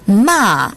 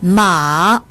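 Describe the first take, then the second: First: The pitch falls sharply from high. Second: The pitch dips low then rises. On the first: It means to scold. "마지막 사성으로 발음하면" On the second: It means horse. "삼성으로 발음하면"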